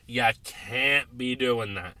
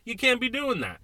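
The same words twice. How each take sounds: First: You can't be doing that, low and slow, with weight on can't; measured, low scolding. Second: You can't be doing that, pitched much higher with can't punched; high exasperated outburst; exasperated repeat. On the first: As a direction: drag it out like a stern lecture. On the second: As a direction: throw it up high in disbelief. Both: Real, not acted. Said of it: "repeats the line for emphasis".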